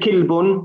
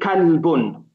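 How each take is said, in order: First: The first vowel is an i sound. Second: The first vowel is an open a sound. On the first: The speaker calls it wrong. "We're not going to say kilbun" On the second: The speaker calls it right. "We have to say kalbun"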